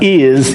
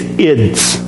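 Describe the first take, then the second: First: A plain z sound with no d before it. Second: A d sound comes just before the z. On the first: The speaker calls it wrong. "it's not is" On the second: The speaker calls it right. "You add a D in between"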